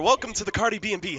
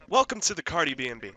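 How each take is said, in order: First: It is said fast and upbeat. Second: It is said slowly.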